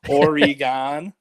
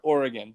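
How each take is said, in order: First: An extra 'e' vowel sounds in the middle. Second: No 'e' vowel sounds in the middle. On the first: It is how people from another region say it. "a really unique pronunciation that people from the Midwest have" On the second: It is how locals say it. "There's no like e sound in there"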